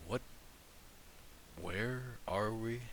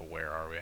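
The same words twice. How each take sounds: First: Very soft "what", long pause, then slow "where are we"; hesitant pause. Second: Said in the usual way. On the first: Acted. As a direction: break off after "what", then quietly stretch "where are we". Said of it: "he, like, pauses before he says". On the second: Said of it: "and then it changes to".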